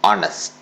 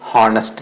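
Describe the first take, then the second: First: The initial h sound is silent. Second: The initial h sound is pronounced. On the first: The speaker calls it right. "എച്ച് silent ആണ്" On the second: The speaker calls it wrong. "തെറ്റായിട്ടാണ് അത് pronounce ചെയ്യുന്നത്"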